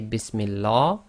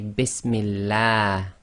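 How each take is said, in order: First: The l sound is heavy, with a full mouth. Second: The l sound is light and thin. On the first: The speaker calls it wrong. "You cannot say" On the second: The speaker calls it right. "you must say Bismillah. ... tarqiq, that is light"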